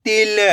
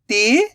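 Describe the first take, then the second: First: "तिल" joined as one short word; blended word. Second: "तिल" as separate sounds, rising "ti", then "la"; split into sounds. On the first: Teacher giving learners the result, "तिल" blended. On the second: Teacher building the word for learners, "तिल" sounded out. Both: Shown as a demonstration. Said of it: "तो मिलके बन जाएगा".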